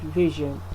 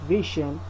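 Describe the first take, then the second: First: The middle consonant is a voiced zh sound. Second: The middle consonant is a voiceless sh sound. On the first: The speaker calls it right. "This is J" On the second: The speaker calls it wrong. "Not sh. So not vision"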